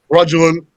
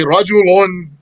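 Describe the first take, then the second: First: The word ends without any added vowel sound. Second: The word ends with an added 'un' sound. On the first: This is ordinary speech, stopping on the word. "outside of the poetry" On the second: This is poetry, keeping the ending at the stop. "in the poetry, you're gonna sometimes actually say rajulun and stop there"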